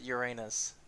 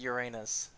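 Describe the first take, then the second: First: It sounds like the joke phrase 'your anus'. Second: It sounds like the joke phrase 'your anus'.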